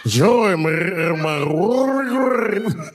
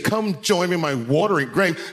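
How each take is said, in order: First: Slow, high gargled delivery; exaggerated throaty, drawn-out spook voice; rolled-throat joke voice. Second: Said in the usual way. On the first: Shown as a demonstration. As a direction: roll your throat, stretching every word. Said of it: "you gotta roll your throat". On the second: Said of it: "No, you gotta roll your throat".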